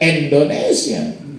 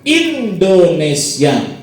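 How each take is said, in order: First: The word begins with an 'e' sound. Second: The word begins with an 'i' sound. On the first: The speaker calls it wrong. "bukan Indonesia" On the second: The speaker calls it right. "Indonesia, bukan"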